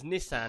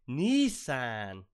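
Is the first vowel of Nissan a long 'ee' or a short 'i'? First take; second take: short i; long ee. First: The first vowel is a short 'i' sound. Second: The first vowel is a long 'ee' sound. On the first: This is the usual American pronunciation. The speaker calls it right. "the normal American way of saying that is Nissan" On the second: This is how the other person says it. The speaker calls it wrong. "and you go"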